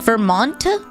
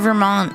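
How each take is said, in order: First: The T is clearly and fully pronounced. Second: The T is cut and barely pronounced. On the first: "with the hard T like Vermont" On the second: "I know it's a Canadian thing to cut the T's"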